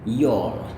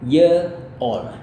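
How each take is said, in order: First: It is squeezed into one short syllable. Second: It is said as two separate syllables. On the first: "Dia seperti ini" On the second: "Dan yang satunya adalah kayak gini"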